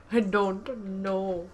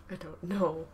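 First: Slow, louder, stretched I don't know; drawn out. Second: Said in the usual way. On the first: Real, not acted. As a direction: stretch every word. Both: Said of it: "repeated slower".

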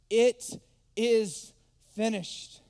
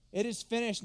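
First: Slow, loud, drawn-out cry; Jesus's last words, loud and slow; slow loud proclamation. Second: Said in the usual way. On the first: Acted. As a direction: proclaim it slowly at full force. Quoting Jesus on the cross.

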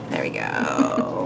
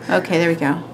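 First: Much lower, slow "There we go."; mock deep voice. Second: Said in the usual way. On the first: Shown as a demonstration. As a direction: drop way down and drag "There we go." out.

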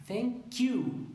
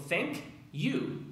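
First: "Thank you" higher, K of "thank" joined straight into "you"; linked. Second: "Thank you" higher, two separate words; separated wrong way. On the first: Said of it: "la K del thank se une". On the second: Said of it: "yo no digo". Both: Shown as a demonstration.

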